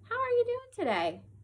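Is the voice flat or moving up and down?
up and down. The pitch moves up and down like a question. The speaker calls it right. "our voice wants to go up and down"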